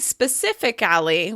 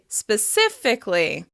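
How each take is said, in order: First: The vowel before the ly ending is kept. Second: The vowel before the ly ending is dropped. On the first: The speaker calls it wrong. "We don't say specifically" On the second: The speaker calls it right. "we're dropping that vowel before the ly"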